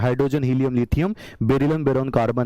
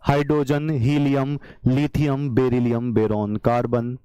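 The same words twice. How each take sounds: First: The list is said fast. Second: The list is said slowly. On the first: "बीस हो गए इतनी जल्दी" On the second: "मैं इतना धीरे धीरे बोल रहा हूं"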